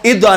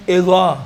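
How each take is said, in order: First: اذا with a hard d-like stop; wrong heavy zaa. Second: اذا with a thick, rounded th-like sound; heavy zaa. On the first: Teacher shows the mistake, hard d. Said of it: "اذا نہیں". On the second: Teacher corrects it, heavy zaa. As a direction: fatten اذا toward "izaw", tongue between teeth. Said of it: "اب اسی اذا کو موٹا پڑھو". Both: Shown as a demonstration.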